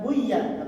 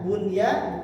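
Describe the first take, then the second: First: The n sound merges into the following y. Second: The n sound is clearly pronounced before y. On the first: The speaker calls it wrong. "bukan buya" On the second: The speaker calls it right. "bunya bukan buya"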